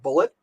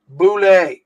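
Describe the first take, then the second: First: The word ends with a t sound. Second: The word ends without a t sound. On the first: The speaker calls it wrong. "a lot of people pronounce it bullet" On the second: The speaker calls it right. "it is pronounced"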